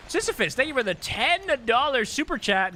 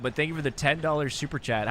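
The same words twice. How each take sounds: First: "thank you for the ten dollar super chat" pitched high and louder in a cartoon mom voice; Marge impression. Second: Said in the usual way. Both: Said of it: "How was that, guys?".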